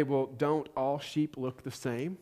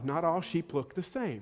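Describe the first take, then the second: First: Slow, soft, puzzled question as an outsider; naive non-shepherd. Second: Said in the usual way. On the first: Retold or imitated. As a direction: play the clueless city person asking. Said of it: "I would probably say". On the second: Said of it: "I mean, no".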